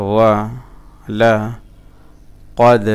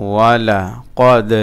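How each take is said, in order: First: ওয়া, লা, কদ with a full pause after each; broken-up syllables. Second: Sung, ওয়ালা কদ run together, slow and louder; sung, joined-up recitation. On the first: Teacher showing learners the parts, halting syllable by syllable. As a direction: recite ওয়া লা কদ piece by piece. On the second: Sung, teacher joining the parts for learners, slow firm recitation. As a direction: chant ওয়ালা কদ as one measured phrase. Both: Shown as a demonstration. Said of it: "আমি ভেঙে ভেঙে বলতেছি".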